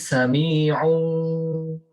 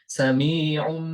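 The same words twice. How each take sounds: First: The final nasal is a held, m-like sound. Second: The final nasal is a clear n sound. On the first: The speaker calls it right. "Tetapi sami'un basir" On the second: The speaker calls it wrong. "Bukan sami'un, tidak, kurang tepat"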